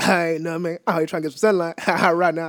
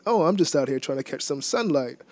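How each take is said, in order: First: "ain't nothing, man" slurred into a grunt; mumbled reply. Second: "trying to catch some sunlight" fully articulated; slower Queen's English. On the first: Answering Kevin on the street, grunted mumble. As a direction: mumble "trying to get some sunlight", then trail into "Right now". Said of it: "you just kinda mumble it". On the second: Translating his own reply for the interviewer, slower Queen's English. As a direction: say "I'm just out here" clearly, word by word. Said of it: "in slower, uh, like, Queen's English". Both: Shown as a demonstration.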